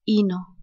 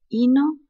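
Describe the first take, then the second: First: "hino" with a falling tune, settled; rhyme sound confirmed. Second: "hino" with a rising tune, held; rhyme sound pointed out. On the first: Teacher echoing the rhyme to students, falling "hino". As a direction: drop "hino" down to close it. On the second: Teacher showing the rhyme to students, rising "hino". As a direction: lift "hino" upward like a question. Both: Shown as a demonstration. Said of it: "Vemos aquí que dice".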